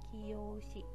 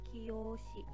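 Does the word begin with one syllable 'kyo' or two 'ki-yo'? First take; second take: two syllables; two syllables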